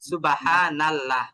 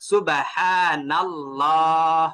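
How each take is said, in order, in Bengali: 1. ঠোঁট গোল থাকে না এবং শব্দটি পাতলা হয়। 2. ঠোঁট গোল থাকে এবং শব্দটি মোটা হয়। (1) "যখন স আ গোল করবেন না তখন" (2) "সামান্য গোল করেছি এটা মোটাও হচ্ছে"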